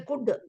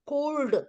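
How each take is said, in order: First: The l is silent in the word. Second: The l is pronounced in the word. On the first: The speaker calls it right. "we say could because many letters are silent" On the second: The speaker calls it wrong. "we don't say coo- cooled"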